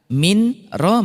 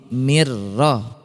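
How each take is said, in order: First: The n sound is pronounced before the r. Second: The n vanishes completely into a doubled r.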